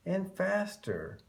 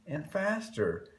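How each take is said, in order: Both takes have the same delivery.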